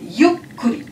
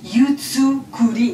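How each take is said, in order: First: A short stop doubles the k sound. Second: A full 'tsu' syllable is said mid-word. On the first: The speaker calls it right. "Non, non, c'est yukuri" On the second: The speaker calls it wrong. "on ne prononce pas yutsukuri"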